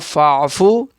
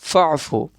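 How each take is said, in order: First: The first vowel is drawn out long. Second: The first vowel is short and joined on. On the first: The speaker calls it wrong. "यहाँ फ़ाफ़ू नहीं पढ़ेंगे" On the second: The speaker calls it right. "फ़ा को जल्दी पढ़ेंगे, फ़ा को आइन में मिलाएंगे"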